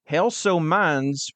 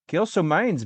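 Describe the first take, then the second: First: It is read in a Southern US accent. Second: It is read in a Canadian-sounding accent. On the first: "why am I doing like the, the southern accent?" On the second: "it's kind of Canadian"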